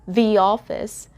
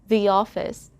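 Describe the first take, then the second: First: A y sound links the into office. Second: The same.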